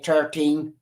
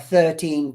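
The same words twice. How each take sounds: First: It is said in an Irish accent. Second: It is said in a standard, non-Irish accent. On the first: "They say thirteen" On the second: "They don't say thirteen"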